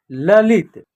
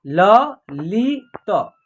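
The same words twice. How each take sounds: First: Said in the usual way. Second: "ल लि त" as three separate sounds; spelled out by syllable. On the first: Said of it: "क्या होगा". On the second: Shown as a demonstration. Teacher sounding out letters for learners, "ल लि त" piece by piece. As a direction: pause after each of "ल", "लि", "त". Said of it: "तीनों को जोड़ेंगे तो एक शब्द".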